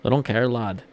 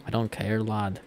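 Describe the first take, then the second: First: Put-on louder, off-target British accent; amateur British accent, loud; badly attempted British accent. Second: Understated British accent attempt; carefully retry the British "lad" at normal volume; lightly imitated British accent; retried British accent. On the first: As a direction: punch out a rough British "lad" imitation. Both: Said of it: "that's not even how it actually sounds".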